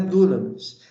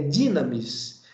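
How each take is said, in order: First: The first vowel sounds like 'oo'. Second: The first vowel sounds like 'ee'. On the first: The speaker calls it wrong. "dunamis não é dunamis" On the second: The speaker calls it right. "é dinamis"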